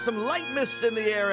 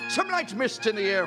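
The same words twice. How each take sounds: First: It is said in the speaker's ordinary accent. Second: It is said in a put-on Irish accent.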